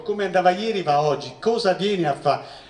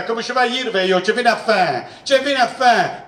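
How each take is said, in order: First: Said in the usual way. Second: Higher-pitched mock parent in thick southern Italian dialect. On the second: Teacher answers a parent at school, southern Italian dialect. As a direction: imitate a brusque southern Italian dialect speaker. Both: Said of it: "Tradotto dal tedesco".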